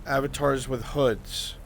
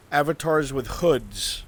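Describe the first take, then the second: No difference in how they are said.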